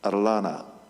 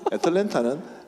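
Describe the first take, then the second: First: The name is clipped, dropping the t sound. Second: The name is said in full, standard form.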